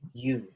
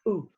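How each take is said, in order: First: The vowel starts with a y glide. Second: The vowel starts directly without a glide. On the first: This is the English way of saying the letter. The speaker calls it wrong. "I've said it in a way that's kind of got a Y in front of it. That's how I'm saying it in English" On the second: This is the Māori way of saying the letter. The speaker calls it right. "But in Māori, you take away the Y and you go, ooh"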